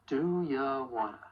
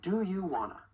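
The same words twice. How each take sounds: First: "ya" in "Do ya wanna?" reduced to weak ya; unstressed ya. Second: "you" in "Do you wanna?" given full vowel; full stressed you. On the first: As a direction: slur "ya" into wanna. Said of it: "When unstressed". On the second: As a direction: say "you" clearly as you. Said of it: "When stressed". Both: Shown as a demonstration.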